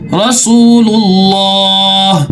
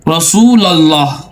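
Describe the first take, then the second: First: It is linked into one word with 'u'. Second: It is split into two words, 'rasul allah'. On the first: The speaker calls it right. "लेकिन क्या है, मुहम्मदुर रसूलुल्लाह" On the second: The speaker calls it wrong. "हमारे भाई ये भी पढ़ते हैं"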